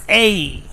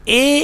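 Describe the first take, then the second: First: Letter A glided out as "eh-ee"; British pronunciation. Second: Letter A as one unmoving "eh" vowel; Pakistani pronunciation. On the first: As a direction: say A as the diphthong "ay". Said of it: "its correct pronunciation is A". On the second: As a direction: say A as "eh", no glide. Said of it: "A is wrong pronunciation". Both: Shown as a demonstration.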